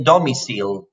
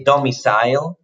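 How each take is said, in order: First: "domicile" ending like "seal"; learner's DOMICILE. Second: "domicile" ending like "sile", rhyming with mile; corrected DOMICILE. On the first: Retold or imitated. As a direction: mispronounce "domicile" as domi-seel. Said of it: "you say domicile". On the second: Shown as a demonstration. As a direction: model "domicile" as domi-sile, rising. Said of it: "but we say domicile".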